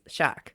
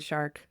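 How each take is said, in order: First: The word is said without the r sound. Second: The word is said with the r sound.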